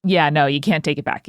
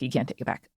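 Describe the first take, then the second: First: Said in the usual way. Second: Much softer repeat, half to herself; soft echo. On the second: Real, not acted. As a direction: murmur it again, trailing off. Quiet echo of own line.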